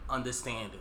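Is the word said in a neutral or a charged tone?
neutral. It is said in a plain, neutral tone.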